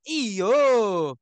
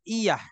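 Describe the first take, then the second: First: The word ends in an 'o' vowel. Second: The word ends in an open 'a' vowel. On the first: "Orang Sumatera" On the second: "kita bilang iya"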